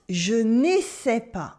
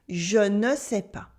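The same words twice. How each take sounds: First: "je n'essaie pas" said as the verb essayer, "neh-SAY", slowly; deliberately misspeak "je n'essaie pas" as "I don't try"; wrong French pronunciation. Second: "je ne sais pas" with a clear "ne" then "sais", "zhuh nuh say pah"; correct French pronunciation. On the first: Teacher showing learners the wrong "je n'essaie pas". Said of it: "It's not je n'essaie pas". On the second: Teacher correcting learners with the right "je ne sais pas". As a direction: say "je ne sais pas" cleanly, no "essaie". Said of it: "It's je ne sais pas". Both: Shown as a demonstration.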